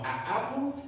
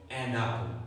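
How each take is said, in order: First: "A apple" with a break between vowels, higher pitched; choppy, unlinked. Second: "an apple" linked as "a-napple", lower pitched; smoother linking. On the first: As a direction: cut "A apple" apart at the vowels. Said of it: "es un poco más suave, ¿no?". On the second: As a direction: let the n of "an" glide into "apple". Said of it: "es un poco más suave". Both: Shown as a demonstration.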